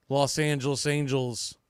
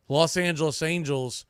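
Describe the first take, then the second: No difference in how they are said.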